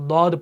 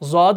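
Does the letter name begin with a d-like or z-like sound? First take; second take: d-like; z-like. First: The letter name begins with a d-like sound. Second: The letter name begins with a z-like sound. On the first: This is how Arabs say it. The speaker calls it right. "बल्कि दौद पढ़ते" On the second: The speaker calls it wrong. "अरब के जो लोग हैं वो इस हरफ को जौद नहीं पढ़ते"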